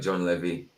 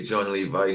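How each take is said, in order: First: The surname ends with an 'ee' sound. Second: The surname ends with an 'eye' sound. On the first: "not John Levy" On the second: "Levi, like the jeans"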